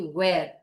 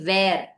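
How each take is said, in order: First: It begins with rounded lips, like W. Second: It begins with teeth on lip, like V. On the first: The speaker calls it right. "You say where" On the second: The speaker calls it wrong. "You do not say where"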